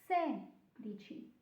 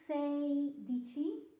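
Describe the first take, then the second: First: The first syllable has a plain 'seh' vowel. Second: The first syllable has the diphthong 'say'. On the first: The speaker calls it right. "but sedici" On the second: The speaker calls it wrong. "it's not sei dici"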